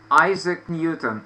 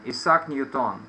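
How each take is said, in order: First: "Isaac Newton" stressed on each first syllable; English name, "Isaac" starting with an eye sound; English pronunciation. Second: "Isaac Newton" stressed on each last syllable; Russian version of "Isaac Newton", s rather than z; Russian pronunciation. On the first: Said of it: "in English we say Isaac Newton". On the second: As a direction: say "Isaac Newton" as ee-SAK nyu-TON. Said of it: "why we say in Russian Newton". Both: Shown as a demonstration.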